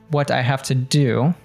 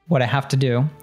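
First: The t in what is a clear t. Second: The t in what is a d-like flap. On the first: "And he doesn't say it that way" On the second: "He says, what I have to do. ... another American T there happening between these two words"

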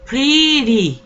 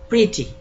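First: The middle consonant is a soft r-like flap. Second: The middle consonant is a clear t sound. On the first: "con R" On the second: "la van a pronunciar como T"

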